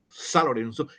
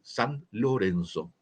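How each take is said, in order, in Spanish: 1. Las palabras se dicen juntas, como un solo bloque. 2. Las palabras se dicen por separado y con claridad. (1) "nuestros cronistas dicen" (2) "que quiere decir San Lorenzo"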